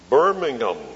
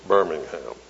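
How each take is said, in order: First: The last syllable is a weak, reduced 'um'. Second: The last syllable is a full, stressed 'ham'. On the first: It names the city in England. The speaker calls it right. "That's what they say in England" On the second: It names the city in Alabama. The speaker calls it wrong. "we emphasize that ham over in Alabama"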